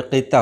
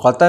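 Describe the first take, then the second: First: क़िता with short "i" after q; correct pronunciation. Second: कता with short "a" after q; wrong pronunciation. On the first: Teacher correcting the poetry term, correctly pronounced. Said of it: "बल्कि क़िता होता है". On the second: Teacher showing what people say, mispronounced. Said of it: "कता नहीं होता है". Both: Shown as a demonstration.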